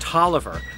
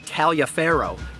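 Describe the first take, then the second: First: It is said as the shorter Tolliver. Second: It is said letter by letter as Taliaferro. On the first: The speaker calls it right. "but is in fact Tolliver" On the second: The speaker calls it wrong. "what looks like Taliaferro"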